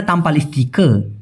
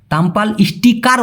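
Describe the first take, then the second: First: স্টিকার as "is-ti-ka", final r dropped; স্টিকার with a silent final r; Malay pronunciation. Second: স্টিকার with a sounded final r; স্টিকার ending in a full "-kar", as Malays don't say it; non-Malay pronunciation. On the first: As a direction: say স্টিকার the Malay way, ending on an open vowel. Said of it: "ওরা বলে". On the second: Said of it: "ওরা বলে না". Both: Shown as a demonstration.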